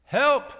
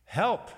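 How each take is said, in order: First: High, loud robot cry for help, much higher and louder; urgent robot cry. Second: A small, lightly voiced robot plea, higher and louder; gentle urgent robot. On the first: Retold or imitated. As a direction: call out like a stuck robot vacuum pleading for help. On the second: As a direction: mimic the Roomba's gentle but urgent call for help. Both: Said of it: "in a gentle but urgent female voice".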